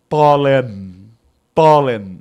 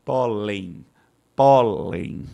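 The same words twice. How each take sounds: First: "pólen" with a full final n, loud; teacher mocking a wrong reading; wrong pronunciation. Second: Teacher giving the correct form; correct pronunciation. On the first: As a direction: exaggerate the n at the end of "pólen". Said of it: "Você não pronuncia a palavra como". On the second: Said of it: "a forma correta de se pronunciar". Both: Shown as a demonstration.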